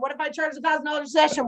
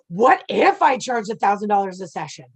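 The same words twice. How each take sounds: First: It is said flatly, without feeling. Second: It is said with excited, wondering feeling.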